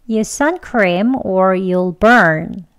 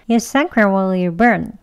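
First: It is said slowly and with strong force. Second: It is said faster and with weak force. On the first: "이렇게 강하게 먼저 천천히 두 번 할게요" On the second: "다음은 이제 약하게 합니다. 속도도 조금 빠르게 하겠죠"

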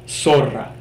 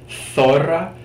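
First: The word begins with an s sound. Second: The word begins with a th sound. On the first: "we'll just focus on having it really a lot closer to the S sound" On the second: "It might sound like a hard TH, like zorra"

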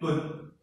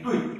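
First: The syllable is read as dun. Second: The syllable is read as dui. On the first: It is the common reading, as in honest and sincere. The speaker calls it wrong. "我不注这个音的话，大家一定念敦啊" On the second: It names a vessel for holding grain. The speaker calls it right. "在戏曲里面它叫对啊，念对啊"

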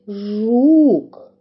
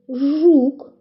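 First: The word is said slowly and drawn out. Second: The word is said at a normal pace.

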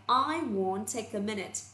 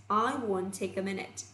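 The two takes are said the same way.

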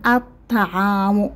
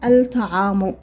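First: The l is silent; the t is doubled. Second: The l is clearly pronounced before the t. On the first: The speaker calls it right. "قلنا نيشان الطعام" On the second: The speaker calls it wrong. "ما قلناش الطعام"

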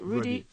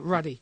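First: The first vowel is a long 'oo' sound. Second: The first vowel is a short 'uh' sound. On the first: The speaker calls it wrong. "Not Rudy" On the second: The speaker calls it right. "The Jamaican way"

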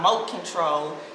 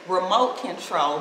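First: The 're' syllable is dropped from the word. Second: The word starts with a full 're' syllable. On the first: The speaker calls it wrong. "but then we got moat control" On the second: The speaker calls it right. "The first one is going to be the correct way"

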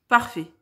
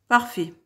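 The two takes are said the same way.

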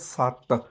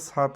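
First: The t sound is doubled and held. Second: The t sound is short and single. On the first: The speaker calls it right. "ਅਦਕ ਦੀ ਵਰਤੋਂ ਕਰਕੇ ਇਸ ਦਾ ਉਚਾਰਨ ਕਰਨਾ ਹੈ" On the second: The speaker calls it wrong. "ਇਹਨੂੰ ਸਤ ਨਹੀਂ ਕਹਿਣਾ"

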